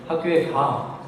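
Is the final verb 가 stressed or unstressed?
stressed. The final verb carries very strong stress. "굉장히 강한 강세가 부과되죠"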